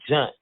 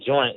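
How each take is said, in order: First: The vowel is a short 'uh' sound. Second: The vowel is a full 'oy' sound. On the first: "we put a little bit of more of a southern southern twang onto it" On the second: "instead of saying joint"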